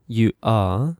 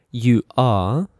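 Both takes have the same delivery.

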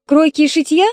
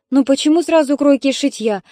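First: Mocking rise on шитья, a touch higher and louder; scoffing question. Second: Said in the usual way. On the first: Sister mocks the mother's suggestion, scornful. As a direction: sneer out «шитья» as a silly idea. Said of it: "возмутилась Светлана".

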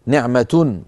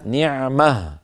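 First: نعمة said as ni'matun, t and -un sounded; full nunated ending. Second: نعمة stopped as ni'mah, final still h; pause form with h. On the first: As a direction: sound the final -tun on نعمة. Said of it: "منونة مرفوعة". (نطق نعمة منونة مرفوعة: نِعْمَتُن) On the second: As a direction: end نعمة on a breathed h, no t. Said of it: "يوقف عليها". (نطق نعمة بالوقف على هاء ساكنة) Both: Shown as a demonstration.

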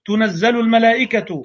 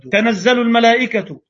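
First: تنزل said "tunazzalu" with u after the t; reading tunazzal. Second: تنزل said "tanazzalu" with a short a after the t; reading tanazzal. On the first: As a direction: read تنزل الملائكة with the tunazzal vowels. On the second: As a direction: read تنزل الملائكة with the tanazzal vowels. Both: Shown as a demonstration. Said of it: "ومما يوقدون، مما توقدون".

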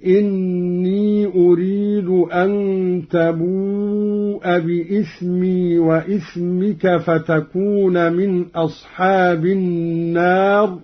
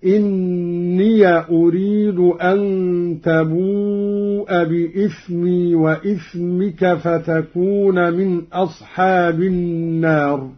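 First: إني recited with a still ya, inni; Quran recitation. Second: إني recited as inniya, ya with a; Qalun reading. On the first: Teacher recites first in the usual reading, inni. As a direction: end إني on a long i with no vowel. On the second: Teacher demonstrates Qalun's open ya, inniya. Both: Shown as a demonstration. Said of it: "قرأ قالون بفتح همزة إني".

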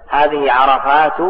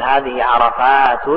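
First: عرفات ending in plain damma, "-tu"; slow demo, say عرفات as "arafaatu", no final n; no tanween. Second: عرفات ending in a nunated damma, "-tun"; slow demo, say عرفات as "arafaatun"; tanween ending. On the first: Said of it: "لكن بلا تنوين". (عرفات بالضم بلا تنوين) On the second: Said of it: "مع التنوين". (عرفات بتنوين الضم) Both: Shown as a demonstration.

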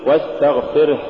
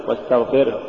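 First: Said in the usual way. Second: واستغفره with the final ه cut short. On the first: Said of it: "قل". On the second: Shown as a demonstration. Teacher warning against an error, cut-off ه in واستغفره. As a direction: swallow the breath of the last ه in واستغفره. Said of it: "ولا تقل".

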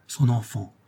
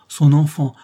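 First: Said in the usual way. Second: "son enfant" said higher and louder, pressed hard; emphatic repeat. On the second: A narrator's reading. The narrator stresses Molly's only thought, "son enfant" louder and higher. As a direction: insist on "son enfant" with force.

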